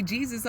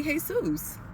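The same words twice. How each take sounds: First: Said in the usual way. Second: "Jesus" said the Spanish way, hay-SOOS, slower. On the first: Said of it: "you might say Jesus". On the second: Shown as a demonstration. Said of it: "We might say Jesus over here".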